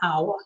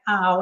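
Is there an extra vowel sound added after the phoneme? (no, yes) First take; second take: yes; no. First: The sound is said with an extra schwa vowel. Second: The sound is said alone, with no added vowel. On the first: The speaker calls it wrong. "and not" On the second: The speaker calls it right. "make sure they're saying"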